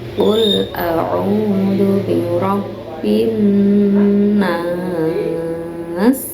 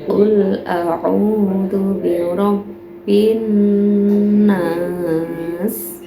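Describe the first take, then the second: First: The final vowel is held moderately long. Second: The final vowel is held only briefly. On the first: "Yang empat harokat" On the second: "Kalau yang dua harokat"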